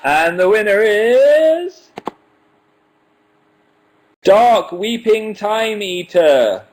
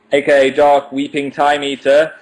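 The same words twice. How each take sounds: First: Slow, high, drawn-out announcer voice; winner announcement. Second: Said in the usual way. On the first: Acted. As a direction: stretch every word like a game-show host.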